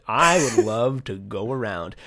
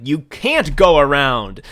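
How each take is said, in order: First: Lightly amused, dreamy declaration; laughing wish. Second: Loud, drawn-out comic prohibition; exaggerated government scolding; mock authoritative shout. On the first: Retold or imitated. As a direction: chuckle through a pretend wish. Voices pirate happy to roam. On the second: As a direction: bellow a mock ban, slowly. Voices government forbidding it.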